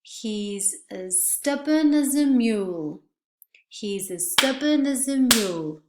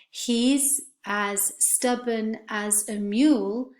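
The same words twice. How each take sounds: First: As and a reduced to schwa, stubborn and mule stressed; weak as and a in He's as stubborn as a mule. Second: He's as stubborn as a mule, slow and careful; slow full vowels. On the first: Teacher modelling natural sentence stress for students. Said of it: "we would say". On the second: Teacher reading the sentence slowly for students. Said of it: "not pronounced as a complete vowel". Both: Shown as a demonstration.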